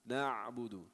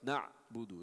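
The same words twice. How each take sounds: First: The ayn is held so its sound is heard. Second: The ayn is cut off with an abrupt stop. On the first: The speaker calls it right. "It's you hear it" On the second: The speaker calls it wrong. "It's not like na'budu. It's not a pause"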